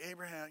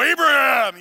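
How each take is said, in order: First: Much softer, gentle calling of the name; quiet angel voice. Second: Loud, booming call of the name; booming angel voice. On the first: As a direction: call the name softly, almost to himself. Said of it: "maybe it was just like". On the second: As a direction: boom it out like a mighty angel. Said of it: "if it was a booming voice". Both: Retold or imitated.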